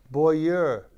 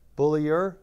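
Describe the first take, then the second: First: The name is said without an L sound. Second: The name is said with an L sound. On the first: The speaker calls it wrong. "There's a L" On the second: The speaker calls it right. "Yeah, it's better"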